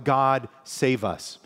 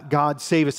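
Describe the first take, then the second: First: A slow, earnest petition; slow prayerful plea. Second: A lifted, louder plea of the crowd; crying out. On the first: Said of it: "it's kind of like". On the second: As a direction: call it out a bit more strongly. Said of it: "And they're crying out". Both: Retold or imitated.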